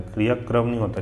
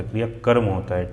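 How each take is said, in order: First: क्रियाक्रम ending in "kram", r straight after k; wrong form. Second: क्रियाकर्म ending in "karm", vowel before the r; correct form. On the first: Teacher rejects the error, क्रियाक्रम ending in kram. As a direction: run k and r together in क्रियाक्रम. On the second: Teacher gives the answer, क्रियाकर्म ending in karm. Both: Shown as a demonstration.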